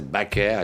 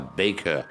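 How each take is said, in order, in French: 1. Le nom se prononce à la française. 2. Le nom se prononce à l'anglaise. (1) "à la française" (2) "non pas"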